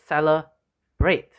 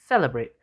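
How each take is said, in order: First: CeleBRATE, drawn out with the last syllable stressed; slow down and hit the "brate" in celebrate. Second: CElebrate, first syllable stressed. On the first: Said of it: "the last five letters are stressed". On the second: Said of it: "when the first two letters are stressed". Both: Shown as a demonstration.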